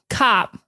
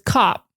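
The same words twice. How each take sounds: First: The vowel is said with a wide-open mouth. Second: The vowel is said with a smaller mouth. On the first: "they really open it up and they go" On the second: "whereas Boston just says"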